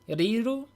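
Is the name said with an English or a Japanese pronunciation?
Japanese. The name is said with a Japanese pronunciation. "for me in Japanese it's Ri, Riru"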